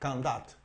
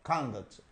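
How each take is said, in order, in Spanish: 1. El acento está en la segunda sílaba. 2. El acento está en la primera sílaba. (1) "el estrés cae en la segunda sílaba" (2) "el estrés se cae en la primera sílaba"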